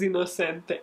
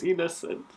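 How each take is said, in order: First: "inocente" said the Spanish way, stress on "cen"; Spanish pronunciation. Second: "innocent" said the English way, stress on the first syllable; English pronunciation. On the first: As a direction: say "inocente" as the Spanish word, with its final "te" sounded. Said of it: "The word in Spanish is". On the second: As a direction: say "innocent" as the English word, without a final vowel. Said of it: "The word in English is". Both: Shown as a demonstration.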